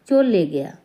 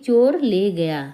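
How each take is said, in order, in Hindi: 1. तेज़ बोलने पर r की ध्वनि l में मिल जाती है। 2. हर शब्द पूरा और अलग-अलग बोला जाता है। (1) "बहुत जल्दी में बोलें ... रा की जगह ला हो गया" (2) "जब हम संभल के बोलते हैं तो हम पूरा बोलते हैं"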